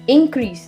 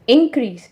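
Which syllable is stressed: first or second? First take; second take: first; first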